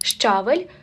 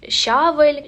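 First: The first sound is sh followed by ch. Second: The first sound is a single hushing sound. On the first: The speaker calls it right. "Ши плюс чи" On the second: The speaker calls it wrong. "вимовляють її як просто одну букву"

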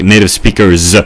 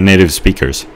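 First: The final sound of speakers is a buzzing Z. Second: The final sound of speakers is a hissing S. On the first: "I just have to pronounce it Z" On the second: "I think they say native speakers. Like an S"

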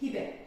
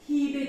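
First: The first vowel is said short. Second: The first vowel is drawn out long. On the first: The speaker calls it right. "Kısa okuyacağız" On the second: The speaker calls it wrong. "Hibe değil"

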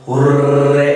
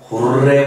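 First: It is said with a very long, forceful r. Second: It is said with a longer, stronger r.

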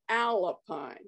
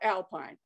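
First: It is said as two parts, Al-Pine. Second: It is said like the ordinary word alpine. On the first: The speaker calls it right. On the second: The speaker calls it wrong.

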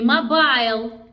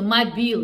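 First: The second syllable has an "eye" vowel. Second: The second syllable has an "ee" vowel. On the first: The speaker calls it wrong. "Не Мобайл" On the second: The speaker calls it right. "Произносится Мобил"

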